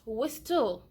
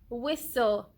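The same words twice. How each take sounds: First: The t sound is clearly pronounced. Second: The t sound is left silent. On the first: The speaker calls it wrong. "It is not whistle" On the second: The speaker calls it right. "it is whistle"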